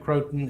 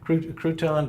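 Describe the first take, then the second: First: It sounds like the word croton. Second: It sounds like the word crouton. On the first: The speaker calls it right. "that's the right way to say it" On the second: The speaker calls it wrong. "I even like to say it wrong"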